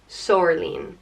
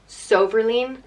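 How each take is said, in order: First: The name is said with two syllables. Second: The name is said with three syllables. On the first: "or Sor-leen" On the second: "either pronounced So-ver-leen"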